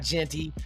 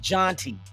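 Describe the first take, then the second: First: The first vowel sounds like 'eh'. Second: The first vowel sounds like 'ah'. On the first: The speaker calls it wrong. "It's not Genty" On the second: The speaker calls it right. "it's Jonty"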